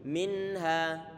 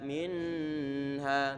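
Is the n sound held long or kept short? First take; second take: short; long. First: The n sound is short and clear. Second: The n sound is held long and nasal. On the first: The speaker calls it right. "nun dibaca dengan jelas" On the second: The speaker calls it wrong. "jangan ditahan lama-lama"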